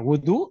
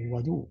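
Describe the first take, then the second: First: The first vowel is an u sound. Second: The first vowel is an a sound. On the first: "Bisa dibaca wudu bidomil wawi" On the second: "atau bisa juga dibaca wadu al uh, fathuha"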